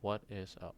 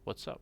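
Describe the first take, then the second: First: It is said slowly, with what is in full. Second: It is said fast, with what is contracted. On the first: The speaker calls it wrong. "Not what is up" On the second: The speaker calls it right. "Natural speakers often say it very fast"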